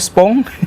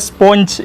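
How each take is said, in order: First: The word ends in a plain 'ng' sound. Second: The word ends in an 'nj' sound. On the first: The speaker calls it wrong. "gara-gara bahasa Inggrisnya kurang dan akhirnya jadi kacau" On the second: The speaker calls it right. "dibacanya sebenarnya sponge"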